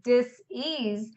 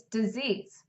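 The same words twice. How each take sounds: First: "dis-ease" said slowly as two parts, DIS then EASE, with a small break; dis-ease split apart. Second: Said in the usual way. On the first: Shown as a demonstration. Healer explaining stress to viewers, slowly splitting "dis-ease". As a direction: pull "dis-ease" apart into dis and ease, slow and deliberate. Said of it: "that creates disease". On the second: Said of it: "state of dis-ease".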